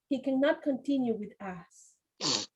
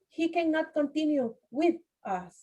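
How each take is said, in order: First: 'With' and 'us' are joined into one sound. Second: 'With' and 'us' are said as separate words. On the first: The speaker calls it right. "We have to join the sounds" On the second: The speaker calls it wrong. "We don't say"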